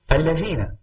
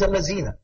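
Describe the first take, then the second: First: The middle consonant is the standard Arabic letter. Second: The middle consonant is swapped for another sound. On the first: This is the form the person cannot manage. The speaker calls it right. "someone does not have the ability to say Allazina" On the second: This is what the person actually says. The speaker calls it wrong. "He says Allazina"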